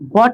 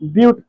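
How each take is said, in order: First: The vowel is short, like 'butt'. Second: The vowel is a long 'yoo', like 'byoot'. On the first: The speaker calls it wrong. "बट नहीं पढ़ना है" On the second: The speaker calls it right. "यहाँ क्या पढ़ना है? ब्यूट पढ़ना है।"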